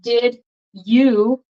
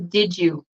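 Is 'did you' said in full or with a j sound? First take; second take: full; j sound. First: The d and y sounds stay separate. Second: The d and y merge into a j sound.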